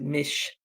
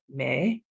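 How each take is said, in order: First: The syllable sounds like 'mitch', as in Michigan. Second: The syllable sounds like 'mee', as in me. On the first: The speaker calls it wrong. "as opposed to Mich, as in like Michigan" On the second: The speaker calls it right. "it's me, me, like as a me, [name]"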